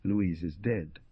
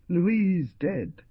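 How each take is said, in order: First: Understated pained repetition, held down; muffled, mechanical. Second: High, acted pained exclamation; broken by pain. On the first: Husband repeating the terrible news, muffled and mechanical. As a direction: say it mechanically, with muted pain. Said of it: "in a muffled voice". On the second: Husband taking in his wife's death, high pained outcry. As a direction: raise the voice high in grief. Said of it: "in a voice broken by pain". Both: A narrator's reading.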